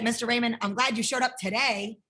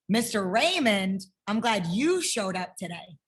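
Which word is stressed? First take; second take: today; you. First: The stress falls on the word today. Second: The stress falls on the word you.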